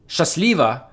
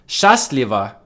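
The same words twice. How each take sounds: First: The stress is on the second syllable. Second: The stress is on the first syllable. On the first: It means take it easy. "if you stress the second syllable" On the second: It means happily or luckily. "If you stress the first syllable"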